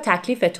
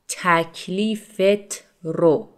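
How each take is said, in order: First: The phrase is said fast, reduced to 'takalifeto'. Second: The phrase is said in full, 'takalifet ro'.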